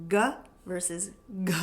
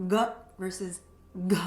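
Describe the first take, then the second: No difference in how they are said.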